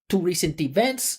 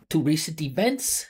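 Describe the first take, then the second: First: The unstressed vowels are said as full vowels. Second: The unstressed vowels are said as full vowels.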